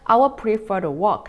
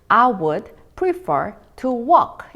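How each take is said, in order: First: It is said fast, with words linked together. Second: It is said slowly, with words kept apart.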